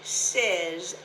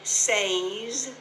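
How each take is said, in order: First: The vowel sounds like the vowel in "said". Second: The vowel sounds like the vowel in "say". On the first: The speaker calls it right. "Notice the S E Z over to one side" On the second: The speaker calls it wrong. "We don't say says"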